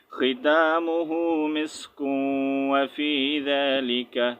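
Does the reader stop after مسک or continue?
continues. The reader continues after مسک without stopping.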